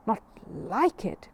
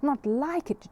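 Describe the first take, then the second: First: Incredulous question. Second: Bursting with disbelieving joy; delighted exclamation. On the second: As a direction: pitch jumps up on a thrilled NOT. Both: Acted. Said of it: "cried the man".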